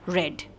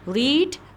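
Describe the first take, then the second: First: The vowel is short, like in 'red'. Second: The vowel is long, like in 'reed'. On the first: It is the third form of the verb. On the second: It is the present form of the verb.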